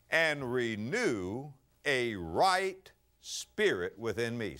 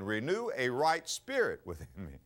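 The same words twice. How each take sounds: First: "right" stretched and stressed, every word very slow; slow emphatic reading. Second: Said in the usual way. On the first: Shown as a demonstration. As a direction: lean hard on "right" in "renew a right spirit". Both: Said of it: "Now watch this".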